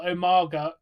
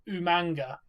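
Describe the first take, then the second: First: The name is said without an n sound. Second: The name is said with an added n sound. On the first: "call Umaga" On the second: "He used to call him Umanga"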